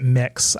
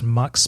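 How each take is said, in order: First: The vowel sounds like the one in 'bit'. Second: The vowel sounds like the one in 'but'. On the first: "I pronounce it mix" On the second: "I've heard it pronounced mux before"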